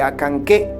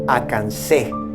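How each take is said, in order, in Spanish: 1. La segunda c se pronuncia como un sonido k. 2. La segunda c se pronuncia como un sonido s.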